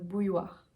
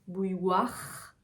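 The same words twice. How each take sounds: First: The R sound is light and softened. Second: The R sound is strong and harsh. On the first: The speaker calls it right. "mais plus adouci" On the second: The speaker calls it wrong. "On n'aura pas quelque chose comme bouilloire"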